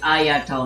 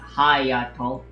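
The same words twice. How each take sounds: First: The name starts with a vowel, no H. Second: The name starts with an H sound. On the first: The speaker calls it right. "There's no H" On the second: The speaker calls it wrong. "not Hayato"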